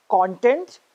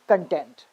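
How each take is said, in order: First: CONtent, stressed on the first syllable. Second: ConTENT, stressed on the second syllable. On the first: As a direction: say "content" as the noun, punching "con". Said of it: "stress on the first syllable". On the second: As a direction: say "content" as the verb, weight on "tent". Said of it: "stress on the second syllable". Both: Shown as a demonstration.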